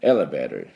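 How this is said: It is said with a soft, weak t sound. "私はT がどうしても弱くなってしまいますんで、アメリカの音なんで"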